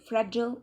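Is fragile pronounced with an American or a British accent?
American. It is said with an American pronunciation. "while fragile is the American one"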